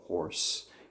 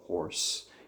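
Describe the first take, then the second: First: The o sound is swallowed in the throat. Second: The o sound is swallowed in the throat.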